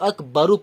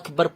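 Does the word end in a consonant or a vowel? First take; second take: vowel; consonant. First: The word ends with an added u vowel. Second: The word ends on the consonant r. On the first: The reader continues without stopping. "না থামলে তো আকবরু পড়তাম" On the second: The reader stops after this word. "থামলাম বলে তো আকবর পড়তাম"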